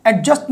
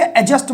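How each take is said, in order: First: एडजस्ट with the d clearly sounded, as a mistaken take; wrong pronunciation. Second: एडजस्ट with the d silent, as the right take; correct pronunciation. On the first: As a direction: say एडजस्ट pronouncing the d, as the wrong version. (एडजस्ट में डी बोलकर, गलत उच्चारण) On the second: (एडजस्ट में डी silent, सही उच्चारण) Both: Shown as a demonstration. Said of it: "डी silent रहेगा".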